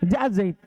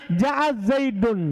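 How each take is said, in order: First: The name ends bare, with no case ending. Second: The name ends with an added -un ending. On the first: It is unclear who came. The speaker calls it wrong. "Kalau dibilang Ja'a Zaid, kita tidak akan paham" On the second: Zaid is clearly the one who came. The speaker calls it right. "kalau bilang Ja'a Zaidun, kita paham dengan i'rabnya"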